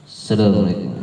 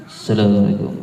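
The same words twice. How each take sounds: Both takes have the same delivery.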